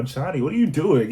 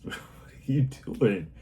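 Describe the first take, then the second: First: Much higher and louder what are you doing; mock stern call. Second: Gentle slow scolding. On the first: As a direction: call out to the kid across the room, half-joking. Adult calling out misbehaving child. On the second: Retold or imitated. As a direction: tease a naughty child kindly, slowly. Adult talking to misbehaving child.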